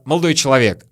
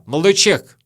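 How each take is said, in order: First: The second word is said in full. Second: The second word is shortened to one syllable. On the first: "не просто молодой человек" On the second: "а вообще молодой чек"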